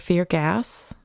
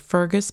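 First: It is said as two words, fear gas. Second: It is said as one smooth name, Fergus. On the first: "Or fear gas" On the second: "which could be Fergus"

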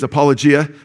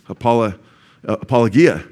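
First: The g is a soft j sound. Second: The g is a hard g sound. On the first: This is how most people say it. "But the popular way to say it is apologia" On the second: This follows the Greek letter gamma. "It's got the g sound, right? Like gamma, gum, ga. So when I look at it in Greek, I'm learning apologia"

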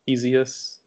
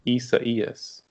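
First: The name is said with English-style sounds. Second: The name is said with Spanish-style sounds. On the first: The speaker calls it wrong. "originally some of us thought it was" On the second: The speaker calls it right. "it's actually pronounced"

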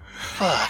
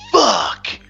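First: It is said softly and gently. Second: It is said harshly and forcefully.

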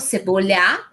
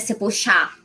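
First: The ll is said like a y sound. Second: The ll is said like a sh sound.

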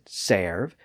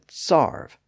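First: The vowel sounds like 'air'. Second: The vowel sounds like 'ar'. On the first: This is the older pronunciation. "both the air and R pronunciations existed side by side" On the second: This is the newer pronunciation. "both the air and R pronunciations existed side by side"

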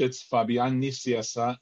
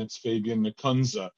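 First: The name is pronounced with Spanish sounds. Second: The name is pronounced with American sounds. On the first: "The way I say it is in Spanish" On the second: "And often in American"

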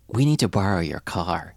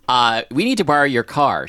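First: It is said in a soft, gentle voice. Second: It is said in a plain, ordinary voice.

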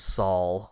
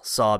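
First: An L sound is added after the aw. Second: It ends on the plain aw vowel.

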